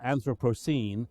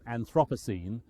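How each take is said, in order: First: The word is said the non-British way. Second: The word is said the common British way. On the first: The speaker calls it right. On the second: The speaker calls it wrong.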